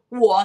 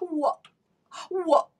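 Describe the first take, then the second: First: The word comes with no breath before it. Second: The word comes after a quick intake of breath. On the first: The speaker calls it wrong. "他不是我" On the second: The speaker calls it right. "你看他会吸一口气才说我"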